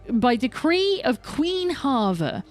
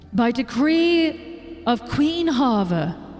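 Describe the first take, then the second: First: It is read in a plain, normal voice. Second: It is read in a grand, important voice.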